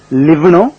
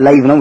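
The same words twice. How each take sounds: First: லிவ் with a short "i", rhyming with "give"; short-i pronunciation. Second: லைவ் with an "eye" vowel, rhyming with "five"; long "eye" pronunciation. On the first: Teacher showing learners one way to pronounce it, short-i லிவ். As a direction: say லிவ்னும் with the vowel of "sit". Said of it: "லிவ்னும் உச்சரிக்கலாம்". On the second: Teacher showing learners the other pronunciation, "eye" sound in லைவ். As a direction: say லைவ்னும் with the diphthong of "time". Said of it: "லைவ்னும் உச்சரிக்கலாம்". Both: Shown as a demonstration.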